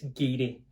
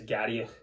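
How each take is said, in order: First: The name ends in a vowel sound. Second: The name ends in a final consonant sound. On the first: The speaker calls it right. "but it's Gary" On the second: The speaker calls it wrong. "you think it says Gariach"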